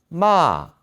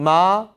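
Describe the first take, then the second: First: It is said in the fourth tone. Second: It is said in the first tone. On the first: "사성" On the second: "일성 마"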